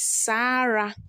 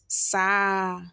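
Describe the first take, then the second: First: The R sound is clearly pronounced. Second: The R sound is dropped entirely. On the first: "The next one here is" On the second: "in tree pronunciation, we call it"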